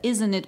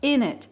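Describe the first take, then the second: First: Both words are said fully and clearly. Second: It is squeezed into a short reduced form. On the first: "вместо isn't it" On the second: "получается такое in it"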